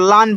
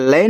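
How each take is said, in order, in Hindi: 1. स्वर 'aa' की ध्वनि है। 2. स्वर 'ae' की ध्वनि है। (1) "इसको लान पढ़ेंगे" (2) "ए का उच्चारण ऐ की मात्रा"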